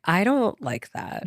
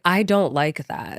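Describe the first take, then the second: First: Slow, pointed, higher; outward firm refusal. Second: Firm refusal. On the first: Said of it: "outwardly being like". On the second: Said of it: "just saying, like". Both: Retold or imitated.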